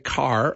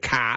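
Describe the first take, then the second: First: It is said with an American R at the end. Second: It is said Boston-style, with no R at the end.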